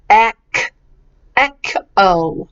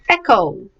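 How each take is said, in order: First: "ek", then "Echo" split after the k; hard k sound. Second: Said in the usual way. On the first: Shown as a demonstration. Teacher corrects the CH, hard k pronunciation. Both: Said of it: "The C H isn't ch".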